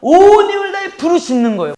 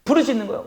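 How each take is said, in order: First: 온 punched loud and high, falling after; loud emphasis. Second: Said in the usual way. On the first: Shown as a demonstration. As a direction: hit 온 hard and high. (온을 크게 강조하며) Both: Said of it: "불러 이르되라는 말씀은요".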